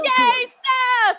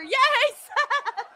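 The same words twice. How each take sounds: First: It is said in a flat, unexcited tone. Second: It is said in a happier, excited tone.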